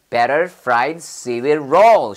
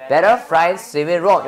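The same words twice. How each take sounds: First: "better fried seaweed roll" word by word, slow and drawn out; careful pronunciation model. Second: Said in the usual way. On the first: Shown as a demonstration. Teacher correcting learners' pronunciation, careful slow "better fried seaweed roll". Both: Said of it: "여기서 하면서 발음도 교정하세요".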